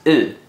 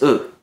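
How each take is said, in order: First: The vowel is held long. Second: The vowel is cut short. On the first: "pronounced U" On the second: "The short form of U is U"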